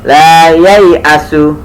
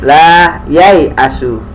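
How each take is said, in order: First: The 'ya' vowel is drawn out long. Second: The 'ya' vowel is kept short. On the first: The speaker calls it wrong. "ya nya dibaca panjang, salah" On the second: The speaker calls it right. "harusnya gini"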